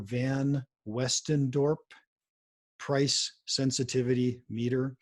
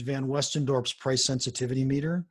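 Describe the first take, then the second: First: The phrase is said slowly and deliberately. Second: The phrase is said at a normal, quicker pace.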